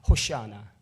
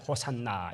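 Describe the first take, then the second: First: The middle syllable is pronounced 'sha'. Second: The middle syllable is pronounced 'san'. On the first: This is how the crowd probably shouted it. "아마 이렇게 했을 겁니다" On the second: This is how people say it today. "우리는 그냥 호산나 이렇게 되지만요"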